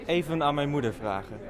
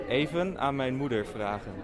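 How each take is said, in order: No difference in how they are said.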